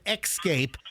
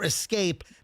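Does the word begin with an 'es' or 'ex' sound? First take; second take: ex; es. First: The word begins with an 'ex' sound. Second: The word begins with an 'es' sound. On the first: The speaker calls it wrong. "not the fire escape" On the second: The speaker calls it right. "you take the fire escape"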